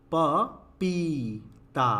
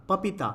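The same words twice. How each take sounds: First: पपीता split slowly, प… पीई… ता; correct long vowel. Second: पपीता said as papitaa, short middle i; wrong short vowel. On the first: Teacher spells out the right word, syllable by syllable. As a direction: sound out पपीता with a long stretched पी. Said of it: "क्या होता है?". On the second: Teacher reads out the misspelling, short vowel. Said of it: "तो नहीं होता". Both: Shown as a demonstration.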